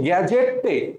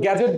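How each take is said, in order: First: The word ends with an added e vowel. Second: The word ends on the t sound. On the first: "আমি বলছি গ্যাজেটে" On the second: "গ্যাজেট বলি নাই ভাই"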